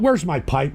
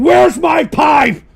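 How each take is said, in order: First: Said in the usual way. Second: High, loud, slow demanding yell; impatient shout. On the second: Real, not acted. Host demanding his pipe, impatient shout. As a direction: yell it, drawing out each word.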